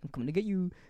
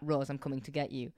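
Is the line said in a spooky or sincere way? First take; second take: spooky; sincere. First: It is said in a spooky, scary way. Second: It is said sincerely, like the scene.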